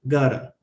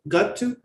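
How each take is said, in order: First: The words are blended into one reduced word. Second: Both words are said fully and separately. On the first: "reduce phrases" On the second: "It's like saying"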